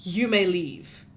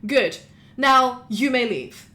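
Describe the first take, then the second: First: Slow, level, unbothered; cool repeat dismissal. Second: Slow, firm dismissal; curt lawyer dismissal. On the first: Alana calmly repeats the lawyer's dismissal to the guard. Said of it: "looks up at him and says". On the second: Lawyer dismisses the guard, slow and firm. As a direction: send the guard off. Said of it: "and says". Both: Acted.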